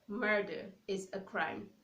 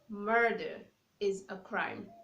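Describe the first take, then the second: The two takes are said the same way.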